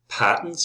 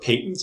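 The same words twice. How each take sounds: First: It is said in an American accent. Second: It is said in a British accent.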